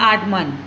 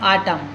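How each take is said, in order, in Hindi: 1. अंतिम N ध्वनि का उच्चारण किया जाता है। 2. अंतिम N ध्वनि छोड़ दी जाती है। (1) "यहाँ पर होता आटमन" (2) "लेकिन हम क्या बोलते हैं"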